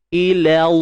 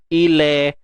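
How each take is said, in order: First: The final vowel is a plain thin 'a' sound. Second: The final vowel is thinned toward an 'e' sound. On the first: The speaker calls it right. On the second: The speaker calls it wrong.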